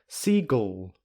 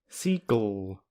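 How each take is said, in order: The two takes are said the same way.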